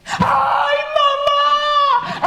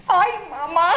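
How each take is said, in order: First: Very high, loud, drawn-out shriek; terrified scream. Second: Higher, short yelp for mama; brief comic cry of alarm; mock fright. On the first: Acted. Mice find the cat right in front of them, terrified scream. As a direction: scream for mama in terror. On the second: Papa sees the cat.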